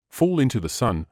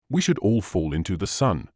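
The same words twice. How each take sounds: First: Mildly surprised questioning repeat; surprised echo. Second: Said in the usual way. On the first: A narrator's reading. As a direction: echo it back in mild disbelief. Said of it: "repeated Bell with surprise".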